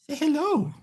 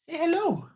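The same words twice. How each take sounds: First: Much higher, softer sing-song with altered tone; pet talk. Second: Much higher, softer sing-song; pet talk. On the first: Repeating the request to the puppy for the viewers, high cooing. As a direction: coo it a second time to the dog. Asking dog to greet viewers. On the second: Asking his puppy to greet the stream viewers, high sing-song. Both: Real, not acted.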